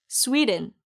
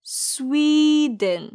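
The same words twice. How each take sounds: First: Quick 스웨덴 as "SWEE-dn"; pronunciation drill. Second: Slow, high 스웨덴 as "SWEEE-dn"; drawn-out repeat-after-me 스웨덴; pronunciation drill. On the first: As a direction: say 스웨덴 at natural speed, front-stressed. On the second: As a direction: hold the SWEE in 스웨덴. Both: Shown as a demonstration. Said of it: "그럼 같이 발음해 볼까요".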